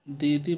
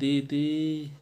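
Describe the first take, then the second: First: The final vowel is short and normal. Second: The final vowel is drawn out very long. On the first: The sister is simply being named. "दीदी बोलेंगे तो ये तो सही है" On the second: The sister is being called from far away. "दूर खड़ी हैं तो उनको आप आवाज़ दें दीदी, तो ई की मात्रा ... बहुत देर तक बोली गई है"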